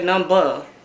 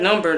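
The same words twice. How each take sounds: First: The final R sound is dropped. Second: The final R sound is clearly pronounced. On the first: "they say number" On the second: "they don't say number"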